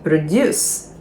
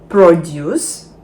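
First: The stress is on the second syllable. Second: The stress is on the first syllable. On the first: It is a verb. "Дієслова, наголос на другий склад" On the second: It is a noun. "Іменник, наголос на перший склад"

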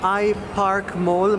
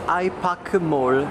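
First: The name is said with an English pronunciation. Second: The name is said with a Korean pronunciation. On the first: "il posto si chiama iPark Mall" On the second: "in coreano si dice iPak Mall"

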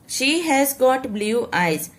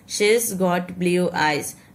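First: The verb 'has' is said as a full word. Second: The verb is shortened to an 's' sound.

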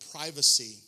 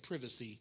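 First: It is pronounced the non-Australian way. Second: It is pronounced the Australian way.

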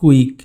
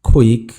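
First: The first sound is an unaspirated k. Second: The first sound is an aspirated k. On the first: The speaker calls it wrong. "আমরা বলে থাকি" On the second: The speaker calls it right. "খয়ের মতো করে উচ্চারণ করি"

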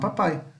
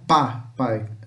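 First: The stress is on the last syllable. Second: The stress is on the first syllable. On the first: The speaker calls it right. "A gente dá mais ênfase aqui no final" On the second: The speaker calls it wrong. "não pá, pai"

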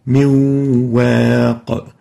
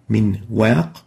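First: The noon merges into the following waw sound. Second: The noon is clearly heard before the waw.

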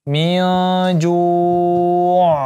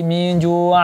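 First: The final consonant is stopped with no vowel. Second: The final consonant is opened with a vowel. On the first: The speaker calls it right. "karena dia sukun, kita wakafkan" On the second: The speaker calls it wrong. "Tidak dibuka lagi"

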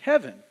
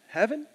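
First: It sounds sure and settled. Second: It sounds unsure and questioning.

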